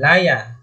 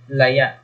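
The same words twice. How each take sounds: First: Stress on the first syllable, open ending. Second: Stress on the last syllable, glottal catch ending. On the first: A kind of fishing net. "pagbigkas natin pag malumay" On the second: Wild, or withered. "maragsa... parang may glottal stop"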